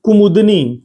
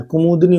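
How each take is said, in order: First: Teacher flags the wrong spelling; wrong form, stressed. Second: Said in the usual way. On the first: Shown as a demonstration. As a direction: call out कुमुदनी as the mistake. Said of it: "कुमुदनी नहीं होता है". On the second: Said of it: "कुमुदनी होता है".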